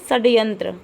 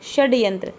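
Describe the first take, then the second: First: The word begins with an 's' sound. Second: The word begins with an 'sh' sound. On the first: The speaker calls it wrong. "बच्चे ने पढ़ा" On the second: The speaker calls it right. "शुद्ध है षड्यंत्र"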